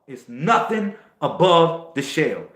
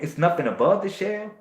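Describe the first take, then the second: First: It is said loudly, with booming force. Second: It is said casually, with little force. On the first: The speaker calls it right. "I said that with thunder because I really feel it" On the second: The speaker calls it wrong. "You ain't thinking it like, oh man"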